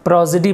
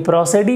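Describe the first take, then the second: First: The middle consonant is a buzzing z sound. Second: The middle consonant is a hissing s sound. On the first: The speaker calls it right. "सा नहीं बल्कि ज हो जाता है" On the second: The speaker calls it wrong. "बल्कि प्रोसिडी नहीं पढ़ते हैं"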